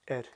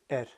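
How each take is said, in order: The two takes are said the same way.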